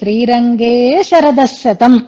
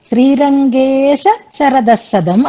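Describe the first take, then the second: First: The break falls before the 'sha' syllable. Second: The break falls after the extra 'sha' syllable. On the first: The speaker calls it right. "అక్కడ ఎలా ఉంటుందంటే శ్రీరంగే శరదశతం అనే ఉంటుంది" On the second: The speaker calls it wrong. "శ్రీరంగేశ అని ఇటు ఆ శాని ఇటు తెచ్చుకోకూడదు"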